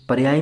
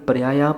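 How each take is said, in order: First: The word ends without the long a vowel. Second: The word ends in a long a vowel. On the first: The speaker calls it wrong. "पर्याय नहीं पढ़ा" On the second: The speaker calls it right. "मैंने आगे पर्याया पढ़ा"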